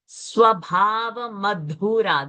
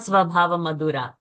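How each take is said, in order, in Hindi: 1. Madhura में dh तेज़ महाप्राण है। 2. Madhura में dh में महाप्राण नहीं है। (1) "The dha is a Mahaprana" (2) "not Swabhava Madhura"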